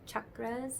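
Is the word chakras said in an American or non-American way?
non-American. The word is said in a non-American way. "I don't say it"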